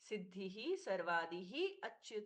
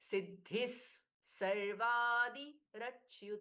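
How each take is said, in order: First: Each word ends in its own separate breathy sound. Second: The word endings link into the following words.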